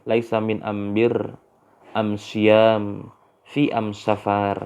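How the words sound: The articles are pronounced with an m sound. This is the Tumtumaniyah dialect form. "dibaca laisa laisa min ambir"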